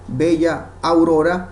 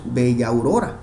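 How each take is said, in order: First: The two meeting vowels are kept apart. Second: The two meeting vowels are blended into one syllable. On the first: "en lugar de leer" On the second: "Se fusiona"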